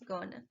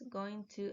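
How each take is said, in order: First: The words blend into one reduced word. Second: Both words are said fully and separately. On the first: "In speaking only, we sometimes pronounce going to as gonna" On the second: "we sometimes pronounce going to as gonna"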